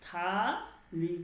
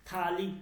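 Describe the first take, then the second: First: থালি stretched very slowly with a breathy থ; drawn-out থালি. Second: Said in the usual way. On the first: Shown as a demonstration. Teacher drilling the student on থালি slowly. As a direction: draw out থালি, puffing the থ. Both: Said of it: "উচ্চারণটা কি?".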